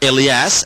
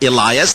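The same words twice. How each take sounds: First: The name is pronounced the Arabic way. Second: The name is pronounced the English way.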